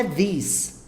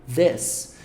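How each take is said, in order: First: "this" said the wrong way with an I vowel, like "dis"; "this" rhyming with "miss", the wrong way. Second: "this" with tongue tip between the teeth and a short E vowel, like "dES"; "this" sounded as "des", never "dis". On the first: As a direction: demo the common mistake, "this" with an EE sound. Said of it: "Então, não é". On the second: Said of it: "e fala assim, ó". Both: Shown as a demonstration.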